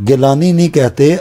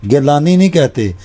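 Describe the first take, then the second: No difference in how they are said.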